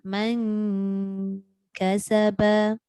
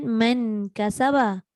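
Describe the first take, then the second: First: The n is hidden, a nasal sound near k. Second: The n is pronounced fully and clearly before k. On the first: The speaker calls it right. "jadi dia duduk tengah-tengah" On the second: The speaker calls it wrong. "Tidak, sebab dia bukan izhar"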